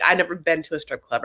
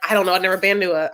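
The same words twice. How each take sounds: First: Said in the usual way. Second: Put-on slight accidental Southern accent; lightly voiced Southern accent. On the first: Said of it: "I don't know why I'm making everyone". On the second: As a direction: imitate him with a touch of Southern twang. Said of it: "making everyone have a Southern accent".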